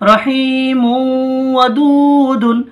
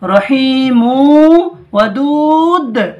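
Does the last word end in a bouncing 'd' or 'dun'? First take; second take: dun; bouncing d. First: The last word ends with a nasal '-dun'. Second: The last word ends with a bouncing 'd'. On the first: The reading continues on without stopping. "দাল দু পেশ দুন" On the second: The reader stops at the end of the verse. "দু পেশটাকে যদি সাকিন করেন... ডালটা কলকলা করে পড়তে হবে"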